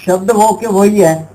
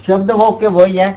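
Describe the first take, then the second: No difference in how they are said.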